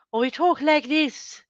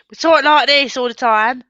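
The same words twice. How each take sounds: First: Put-on much higher, lighter caricature British accent. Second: Put-on louder, higher caricature British accent. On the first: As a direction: other extreme of British accents, pitched up. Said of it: "there's nothing in between". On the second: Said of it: "I think Americans think".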